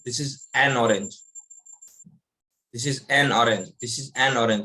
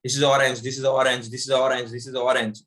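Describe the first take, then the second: First: "an" said slowly, with a break before "orange"; slow, clear an. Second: Run together. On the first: Teacher shows students the break after the article. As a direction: pause and stress "an" slowly. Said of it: "वहां मैं एक break लगा देता हूँ". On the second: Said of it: "आपको पता चला अ बोला या नहीं बोला". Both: Shown as a demonstration.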